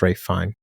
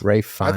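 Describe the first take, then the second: First: The surname ends without an S sound. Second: The surname ends with an S sound. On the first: The speaker calls it right. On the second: The speaker calls it wrong.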